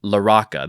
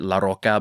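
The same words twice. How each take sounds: First: The name is said with English-style sounds. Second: The name is said with Spanish-style sounds. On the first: The speaker calls it right. "There you go" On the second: The speaker calls it wrong. "I wanted to Latinify it and pronounce it"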